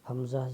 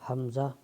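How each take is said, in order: No difference in how they are said.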